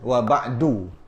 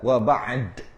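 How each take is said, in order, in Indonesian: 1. Kata terakhir berakhir dengan vokal setelah d. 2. Kata terakhir berakhir pada konsonan d tanpa vokal. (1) "hidupkan dal"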